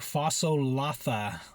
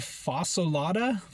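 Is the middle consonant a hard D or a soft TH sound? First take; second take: soft TH; hard D. First: The middle consonant is a soft TH sound. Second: The middle consonant is a hard D sound. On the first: This is how the word is actually pronounced. "it looks like one thing, but you pronounce it a different way" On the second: This is how the word looks when written. "I want to say fasolada"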